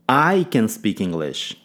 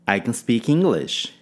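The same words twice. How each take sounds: First: The stress falls on the word I. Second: The stress falls on the word English. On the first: It is the speaker, not someone else, who speaks it. "Ênfase no pronome" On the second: The language is English, not some other language. "Ênfase em English"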